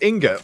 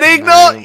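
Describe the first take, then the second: First: The n sound comes before the g sound. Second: The g sound comes before the n sound. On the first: The speaker calls it right. "It's ingot" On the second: The speaker calls it wrong. "You said ignot!"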